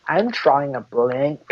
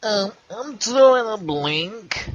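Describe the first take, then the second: First: Slow catchphrase. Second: High, slow cartoon voice; cartoon character voice. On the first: Acted. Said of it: "You have to be like". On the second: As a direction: stretch it out like a goofy cartoon. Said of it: "You sound like a cartoon character".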